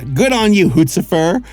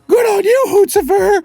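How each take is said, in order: First: It is said in his normal voice. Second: It is said imitating Hooty's shrill voice.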